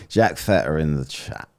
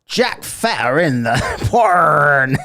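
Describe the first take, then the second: First: Said in the usual way. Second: Loud, slow laughing blurt of the misread name. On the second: Real, not acted. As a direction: blurt the wrong word out through a laugh.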